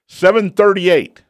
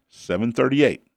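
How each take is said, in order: First: "Seven thirty-eight" called out high, "Seven" punched; emphatic stress. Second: Said in the usual way. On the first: Shown as a demonstration. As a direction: hit "Seven thirty-eight" hard and high, like correcting a mistake. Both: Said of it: "Not seven thirty-seven".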